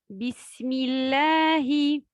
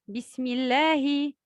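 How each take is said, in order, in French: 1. Elle est récitée à un rythme lent. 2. Elle est récitée à un rythme moyen. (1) "At-Tahqiq, on lit lentement"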